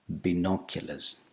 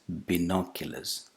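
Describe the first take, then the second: First: The first vowel is a short single vowel. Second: The same.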